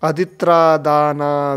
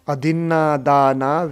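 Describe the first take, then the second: First: The middle cluster is pronounced 'tr'. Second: The middle cluster is pronounced 'nn'. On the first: The speaker calls it wrong. "ये न को अदित्रा बोलते हैं ... ऐसे उच्चारण करते हैं" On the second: The speaker calls it right. "अदिन्ना है, दो ना है इसमें"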